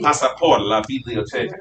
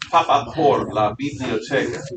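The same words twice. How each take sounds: First: The s is pronounced plainly. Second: The s is pronounced with a lisp. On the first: This is the non-Castilian version. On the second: This is the Castilian version.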